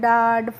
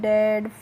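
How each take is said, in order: First: The vowel is an open 'ah' sound. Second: The vowel is a flat 'a' sound. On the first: The speaker calls it wrong. "इस तरीके से नहीं pronounce करना है" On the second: The speaker calls it right. "कैसे करना है"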